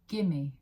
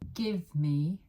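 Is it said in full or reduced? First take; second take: reduced; full. First: The words are reduced to one word. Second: Both words are said in full.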